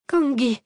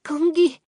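First: Shouted "Kangui!" with a falling cry. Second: "Kangui!" screamed high and much louder; anguished scream. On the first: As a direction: call "Kangui!" out loud as a cry of grief. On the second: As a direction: wail "Kangui!" at full voice in despair. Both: A narrator's reading. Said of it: "hurlait-elle".

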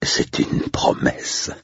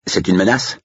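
First: Slow, low-key statement on "promesse"; measured retort. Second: High, rising question on "menace"; challenging question. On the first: Andrew answers the agent's challenge, slow and menacing. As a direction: draw out "promesse" as a quiet certainty. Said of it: "répliqua Andrew". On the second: Estate agent asks the intruder if that's a threat, challenging. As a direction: lift "menace" into a higher-pitched challenge. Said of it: "demanda l'un des commerciaux". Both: A narrator's reading.

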